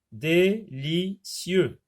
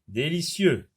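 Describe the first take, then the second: First: "Délicieux" very slowly as dé-li-cieux; three separate beats on "Délicieux"; split into syllables. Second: Said in the usual way. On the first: Shown as a demonstration. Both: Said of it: "trois syllabes".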